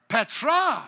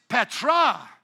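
No difference in how they are said.

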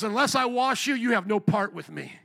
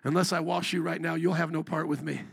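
First: Firm, slightly raised warning; Jesus. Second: Lower, understated parental warning; parent to kids. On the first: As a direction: lay down the condition with authority. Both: Acted. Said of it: "Sometimes I talk like that to my kids".

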